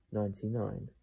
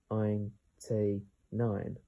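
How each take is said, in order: First: Said in the usual way. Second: "ein T nine" slowly, each syllable apart; sounded out slowly. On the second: Shown as a demonstration. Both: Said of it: "How to pronounce this word?".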